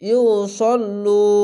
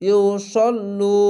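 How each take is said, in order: No difference in how they are said.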